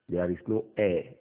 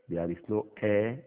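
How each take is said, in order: No difference in how they are said.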